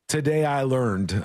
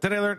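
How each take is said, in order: First: The phrase is said slowly and carefully. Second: The phrase is said very quickly, syllables crammed. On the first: "I have to really focus" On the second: "I just say it really fast"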